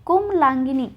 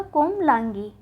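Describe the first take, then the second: First: कोमलांगिनी with an added ni; the mistaken ni closing कोमलांगिनी; wrong form कोमलांगिनी. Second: कोमलांगी with no final ni; correct form कोमलांगी. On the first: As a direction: say कोमलांगिनी ending gi-ni. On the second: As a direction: say कोमलांगी ending in gee. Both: Shown as a demonstration. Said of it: "कोमलांगिनी नहीं होके क्या होगा".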